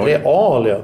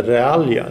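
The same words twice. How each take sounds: First: Realia with a long, stressed "a" after "Re". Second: Realia with a shorter first "a". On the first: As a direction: draw out the first "a" in "Realia". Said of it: "Punkt under första A". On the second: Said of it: "jag vet inte". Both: Shown as a demonstration.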